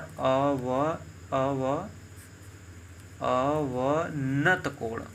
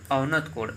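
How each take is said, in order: First: "अवनत कोण" drawn out very slowly in pieces; slow, stretched syllables on "अवनत कोण"; slow dictation. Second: Said in the usual way. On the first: Shown as a demonstration. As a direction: sound out "अवनत कोण" part by part, with pauses. Teacher sounds out the new term.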